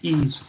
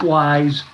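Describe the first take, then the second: First: The word begins with a vowel, like 'ease'. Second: The word begins with a 'w' sound, like 'wise'. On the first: The speaker calls it right. "It's pronounced ease" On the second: The speaker calls it wrong. "not wise"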